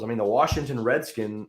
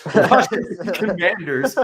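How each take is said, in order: First: Said in the usual way. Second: "The Washington Commanders" said higher and louder as a pointed correction; corrected name. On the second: Shown as a demonstration. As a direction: stress "Commanders" to fix the slip, higher and louder. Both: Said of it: "sorry, guys".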